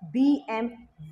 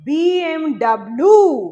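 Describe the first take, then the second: First: The last letter is said as vee. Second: The last letter is said as double-u. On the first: The speaker calls it right. "It's the German pronunciation" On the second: The speaker calls it wrong. "অনেকেই ভুল করে আমরা বলে থাকি"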